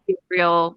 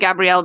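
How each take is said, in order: First: The name is pronounced the English way. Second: The name is pronounced the French way. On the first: An English speaker is addressing him. "it's Gabriel when the English for English speakers" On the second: A French speaker is addressing him. "that's how you would pronounce it in French"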